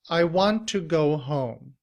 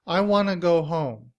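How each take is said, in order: First: Want to is said fully, with a clear t. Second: Want to is reduced and blended into wanna. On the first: "In citation form" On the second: "in reduced form, we do not say want to. Instead, we say wanna"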